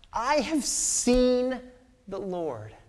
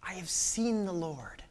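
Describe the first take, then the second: First: Awed proclamation. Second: Hushed repeat. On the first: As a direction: announce it as the greatest news. Mary announces the resurrection. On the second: Repeated softer. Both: Acted.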